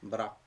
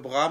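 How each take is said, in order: First: The R is rolled with the tongue tip. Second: The R is said without a roll. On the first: "mais R roulé" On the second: "comme le bras"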